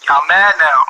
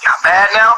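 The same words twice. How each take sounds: First: "mad" leaned on, falling smugly; smug taunt. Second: Taunting chat. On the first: To chat, rubbing in that viewers are mad: smug. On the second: To chat, taunting viewers who are angry at him: teasing. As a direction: goad the chat, rising. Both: Real, not acted.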